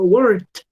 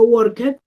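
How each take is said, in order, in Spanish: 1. La palabra termina en sonido de t. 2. La palabra no termina en sonido de t. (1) "con esa T al final" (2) "Yo no digo worked"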